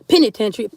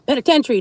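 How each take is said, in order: First: The first syllable sounds like 'pin'. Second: The first syllable sounds like 'pen'. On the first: The speaker calls it wrong. "not penitentiary" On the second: The speaker calls it right.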